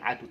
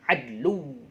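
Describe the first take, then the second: First: The word is said with no L sound. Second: The word is said with an L sound. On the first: The speaker calls it wrong. "Tapi bacanya jangan adu" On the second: The speaker calls it right. "tapi adlu"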